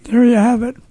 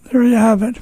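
The two takes are said the same way.

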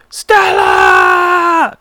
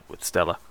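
First: Loud strained whisper-shout; whisper yell. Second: Said in the usual way. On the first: Shown as a demonstration. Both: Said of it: "that was a whisper yell".

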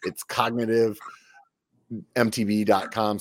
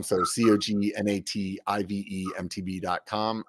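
First: Said in the usual way. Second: "C O G N A T I V E" spelled one letter at a time. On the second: Shown as a demonstration.

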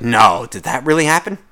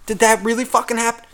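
First: A touch of put-on surprise, rising at the end; mild fake surprise. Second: Higher, overdone mock astonishment; hammed-up fake surprise. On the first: Listener humoring a coworker's work story, mildly faking surprise. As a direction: ask it like you barely care. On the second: Listener mocking a coworker's work story with hammed-up surprise. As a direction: pile on the fake shock. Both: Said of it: "people that act surprised".

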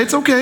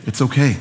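First: Much higher, rising call to the crowd; eager call to repeat. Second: Said in the usual way. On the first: Shown as a demonstration. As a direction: lift it high and invite them to answer. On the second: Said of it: "Turn to somebody and say".

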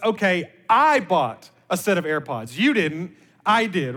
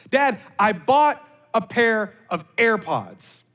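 First: Retold dad's correction, "I" stressed against "You". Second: Slow, proud announcement imitating a daughter; excited daughter imitation. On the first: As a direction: lean hard on "I", as the one who really paid. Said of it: "my mindset was". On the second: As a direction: mimic a daughter announcing big news, drawn out. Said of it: "here was her exact wordings".

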